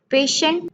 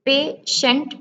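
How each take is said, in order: First: Said in the usual way. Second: "पेशेंट" as pay, pause, shent; split into syllables. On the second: Shown as a demonstration. Teacher counting two syllables in patient, each said apart. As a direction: leave a gap inside "पेशेंट". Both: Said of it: "two syllable".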